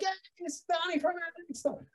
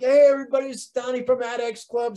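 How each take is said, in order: First: It sounds cheerful and happy. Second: It sounds irritated and angry.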